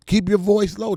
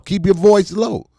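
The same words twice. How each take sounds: First: "your" stressed, rising, much higher and louder; mother hushing again. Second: "voice" stressed, falling, much higher and louder; mother hushing. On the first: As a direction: push "your" up as the mother repeats it. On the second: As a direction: lean on "voice" as the scolding mother. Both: Retold or imitated. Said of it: "Just like your mother told you".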